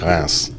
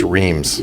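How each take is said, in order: First: It is said with the French pronunciation. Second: It is said the way it is spelled. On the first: The speaker calls it right. "The way the French pronounce it" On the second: The speaker calls it wrong. "spelled like it would be pronounced"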